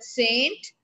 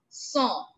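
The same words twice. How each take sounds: First: It is pronounced with an English pronunciation. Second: It is pronounced with a French pronunciation. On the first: The speaker calls it wrong. "In English, we call it saint" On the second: The speaker calls it right. "but in French, Saint"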